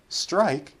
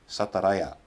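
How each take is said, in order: First: All three opening consonants are said together without vowels. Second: Extra vowels split the opening consonants into syllables. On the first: This is how a native speaker says it. "how a native speaker would say it" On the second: A non-native speaker adds extra syllables. "adding extra vowels and thus extra syllables"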